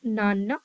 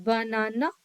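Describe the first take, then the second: First: Put-on नाना said as a toddler would, first syllable of banana dropped, rising at the end; toddler's clipped नाना with a lift at the end; baby simplified word. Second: Said in the usual way. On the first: Shown as a demonstration. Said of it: "तो नाना ऐसे बोलते हैं". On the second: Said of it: "जैसे बनाना में नाना पे ज़्यादा stress".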